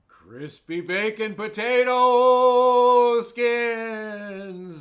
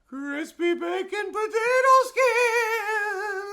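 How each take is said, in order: First: It is said at a normal pitch. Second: It is said at a much higher pitch.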